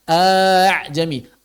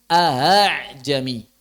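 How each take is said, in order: First: The second glottal stop becomes a long vowel. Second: The second glottal stop is softened to a breathy sound. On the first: The second hamzah is replaced rather than eased. The speaker calls it wrong. "A'jami itu namanya mad ibdal" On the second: This is the eased reading transmitted in the recitation. The speaker calls it right. "Yang asalnya a'ajami menjadi ahajami"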